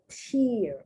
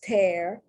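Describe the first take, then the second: First: The vowel sounds like the one in ear. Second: The vowel sounds like the one in bear. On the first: A drop that comes out of the eye. "the thing that comes out of your eyes" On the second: To rip something. "but I see the phonetic spelling"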